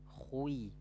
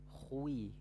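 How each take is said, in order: The two takes are said the same way.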